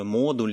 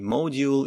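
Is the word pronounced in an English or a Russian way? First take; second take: Russian; English. First: It is pronounced the Russian way. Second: It is pronounced the English way. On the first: "буду произносить по-русски" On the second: "По-английски там есть отличия"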